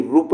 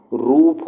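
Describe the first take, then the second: First: रूप clipped to a short "rup". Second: रूप slowed to a long "rooop". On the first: Teacher showing the wrong form, short U in रूप. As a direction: cut the vowel in रूप short. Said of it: "रूप नहीं होता". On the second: Teacher giving the correct form, long U in रूप. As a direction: draw out the vowel in रूप. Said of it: "रूप होता है". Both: Shown as a demonstration.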